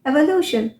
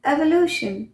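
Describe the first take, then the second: The two takes are said the same way.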